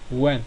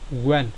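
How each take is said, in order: Both takes have the same delivery.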